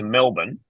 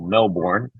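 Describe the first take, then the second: First: It is said with an Australian pronunciation. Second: It is said with an American pronunciation.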